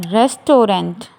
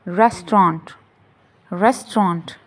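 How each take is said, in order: First: Restaurant in three syllables, RES-TO-rent; wrong pronunciation. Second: Restaurant in two syllables, RES-tront; correct pronunciation. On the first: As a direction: sound the middle O in Restaurant. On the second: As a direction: drop the middle vowel in restaurant, RES-tront. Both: Shown as a demonstration. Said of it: "No, it's".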